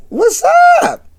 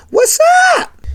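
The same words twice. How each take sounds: First: Copied what's up. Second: What's up sung far up high, stretched out; drawn-out what's up. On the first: Retold or imitated. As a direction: repeat the host's what's up, tasting it. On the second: Acted. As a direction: toss a high, lilting what's up to the caller. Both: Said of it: "I like that".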